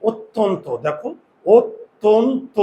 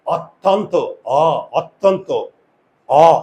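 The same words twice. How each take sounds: First: অত্যন্ত with closed vowels, "ot-ton-to", then split higher and slower; correct pronunciation. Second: অত্যন্ত with an open first vowel, "awt-tawn-to", অ repeated alone; wrong pronunciation demo. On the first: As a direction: round every vowel of অত্যন্ত to "o", jaw barely open. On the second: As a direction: drop the jaw on the অ of অত্যন্ত, "aw". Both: Shown as a demonstration. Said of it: "আমরা এটাকে উচ্চারণ করি কি".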